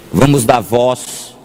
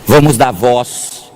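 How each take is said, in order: Both takes have the same delivery.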